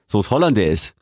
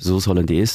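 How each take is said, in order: First: It is stressed sharply and hard. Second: It is stressed softly and smoothly.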